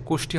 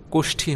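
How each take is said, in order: First: কোষ্ঠী said as kosti, plain unaspirated t; wrong pronunciation. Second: কোষ্ঠী said as koshthi, aspirated ঠ; correct pronunciation. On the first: Teacher shows students the wrong form, kosti. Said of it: "কোষ্ঠী হবে না". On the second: Teacher gives students the right form, aspirated ঠ. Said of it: "কোষ্ঠী হবে". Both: Shown as a demonstration.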